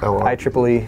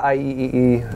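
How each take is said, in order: First: The three E's are spoken as 'triple E'. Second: Each letter E is spoken separately. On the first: The speaker calls it right. "It's I triple E" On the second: The speaker calls it wrong. "I say I E E E, and I guess that is kind of awkward"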